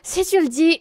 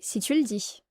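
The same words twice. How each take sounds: First: It is said in a sarcastic, doubtful tone. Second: It is said in a plain, neutral tone. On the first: The speaker does not believe what was said. "It means I don't believe you" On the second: The speaker simply accepts what was said. "nothing crazy like that"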